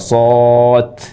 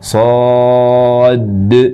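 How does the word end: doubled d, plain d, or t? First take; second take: t; doubled d. First: The word ends with a t sound. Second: The word ends in a doubled, held d. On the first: "kita mengubah huruf terakhir dari shad yang harusnya huruf dal. Ini terubah menjadi ta" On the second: "melebihkan huruf dal, jadi double dal"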